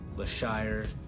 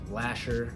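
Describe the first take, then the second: First: It is said with sh and ending in -ire. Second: It is said with sh and ending in -er.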